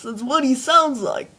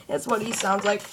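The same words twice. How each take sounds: First: Lightly voiced dim-witted weasel henchman; Stupid. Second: Said in the usual way. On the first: Shown as a demonstration. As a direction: say it as a slightly dopey cartoon sidekick. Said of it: "He just sounds like this".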